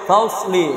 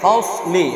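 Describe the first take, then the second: First: The ṣ is said with rounded lips. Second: The ṣ is said with unrounded lips. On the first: The speaker calls it wrong. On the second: The speaker calls it right.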